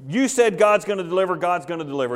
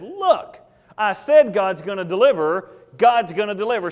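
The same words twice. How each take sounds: First: Mildly conceding, settling down at the end. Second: Scolding. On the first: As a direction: repeat it back as one who accepts the reproof. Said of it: "Jehoash leaves that day and says". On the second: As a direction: scold a doubter in a raised voice. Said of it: "Elisha scolds him and says". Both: Acted.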